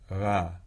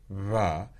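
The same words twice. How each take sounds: First: The v is made weakly, with almost no friction. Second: The v is made with clear buzzing friction. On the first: "and then just do that more weakly" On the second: "to the voiced fricative"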